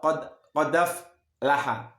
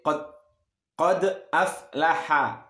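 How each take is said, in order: First: The hamza is softened and blended into the word. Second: The hamza is pronounced fully and clearly. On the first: "kalau dibaca tasil" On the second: "hamzah biasa-biasa ya"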